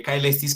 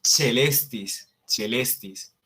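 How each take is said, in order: First: Caelestis said "ka-e-LES-tis", hard k; as spelled. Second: Celestis said "che-LES-tis"; celestis, opening on an Italianate ch; correct Latin pronunciation. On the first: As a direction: read caelestis letter by letter with a k. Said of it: "se escribe caelestis". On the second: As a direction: say celestis with ch, ae as plain e. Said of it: "pero se pronuncia". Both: Shown as a demonstration.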